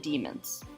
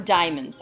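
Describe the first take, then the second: First: The first syllable sounds like dee. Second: The first syllable sounds like die.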